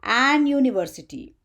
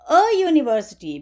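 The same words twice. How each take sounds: First: "an university" with a clear n before the "you" sound; incorrect article. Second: Short "a" before a "you" sound in university; correct article. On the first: Teacher showing students what not to say, a clearly sounded "an university". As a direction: put a full "an" before university as a counterexample. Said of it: "We don't say". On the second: Teacher showing students the correct article, "a university" said briskly. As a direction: say "a university" as one phrase, starting university with "you". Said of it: "we say". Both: Shown as a demonstration.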